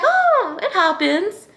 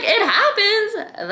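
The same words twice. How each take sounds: First: Much higher, airy and casual; high, light, careless tone; breezy shrug. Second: Much higher and slow, disbelieving; stretched, high "It happens?" in disbelief; incredulous echo. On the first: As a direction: brush it off like it's nothing. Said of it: "And I was like". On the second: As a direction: repeat "It happens?" as if it's absurd. Echoing own words in disbelief. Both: Retold or imitated.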